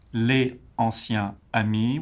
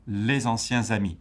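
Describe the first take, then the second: First: LES, ANCIENS, AMIS said apart, no liaison; separate French words. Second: LES ANCIENS AMIS glued with z liaisons, no pauses; French rhythmic group. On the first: Teacher showing words before grouping, LES ANCIENS AMIS unlinked. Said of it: "called groupes rythmiques or intonation units". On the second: Teacher showing one rhythmic group, LES ANCIENS AMIS linked. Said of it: "there's no pause between words". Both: Shown as a demonstration.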